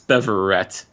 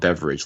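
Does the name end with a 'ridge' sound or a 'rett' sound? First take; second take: rett; ridge. First: The name ends with a crisp 'rett' sound. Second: The name ends with a soft 'ridge' sound. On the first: The speaker calls it right. "but it's Beverett" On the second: The speaker calls it wrong. "I called him Beverage last week"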